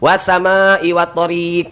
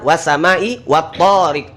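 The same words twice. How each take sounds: First: The second vowel of tariq is long. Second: The first vowel of tariq is long. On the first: The speaker calls it wrong. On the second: The speaker calls it right. "To-nya yang panjang"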